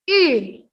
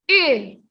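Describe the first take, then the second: First: The pitch drops sharply with pressure. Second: The same.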